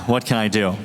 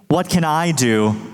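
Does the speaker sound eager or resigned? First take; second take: resigned; eager. First: It sounds resigned and helpless, with a shrug. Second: It sounds eager and keen to act. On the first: The person feels nothing they do will matter. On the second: The person wants to find a way to take part.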